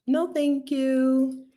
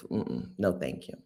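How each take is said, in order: First: High, slow, drawn-out no thank you; emphatic polite refusal. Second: Low, soft, falling no thank you; muted refusal. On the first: Speaker turning down the country, high drawn-out refusal. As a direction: stretch it out high. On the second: Speaker turning down the country, low muted refusal. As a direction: drop it low, almost to yourself. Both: Real, not acted.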